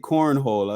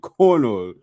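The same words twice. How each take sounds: First: It is said in a plain American accent. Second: It is said in a Norwegian accent.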